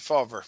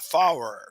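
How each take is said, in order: First: The name is said with a v sound. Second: The name is said without a v sound. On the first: The speaker calls it right. "I didn't see the V" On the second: The speaker calls it wrong. "Did I pronounce that correct"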